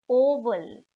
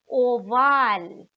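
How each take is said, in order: First: "oval" the English way, stressed on the first syllable; English pronunciation. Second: "oval" the German way, stressed on a long second syllable; German pronunciation. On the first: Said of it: "written like the English oval". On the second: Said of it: "but pronounced oval". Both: Shown as a demonstration.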